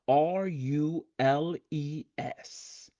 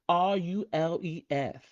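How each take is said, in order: First: The letters are spelled out in a plain voice. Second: The letters are spelled with a lisp. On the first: "rules is spelled R U L E S" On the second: "If you're a little sassy, you're going to say ... with a little lisp"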